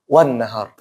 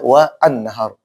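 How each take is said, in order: First: The words are linked smoothly into one sound. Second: The words are said separately, with the glottal stop. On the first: "Kalau disambung" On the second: "kalau dipisah"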